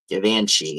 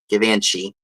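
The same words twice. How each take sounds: First: The name is said in a fancy, posh way. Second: The name is said in a plain, ordinary way.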